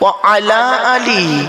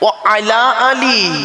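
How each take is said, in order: First: Wa and ala are said as separate words. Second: The same.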